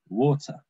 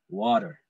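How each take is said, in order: First: It is said in a British accent. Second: It is said in an American accent. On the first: "British people like me say water" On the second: "Americans say water"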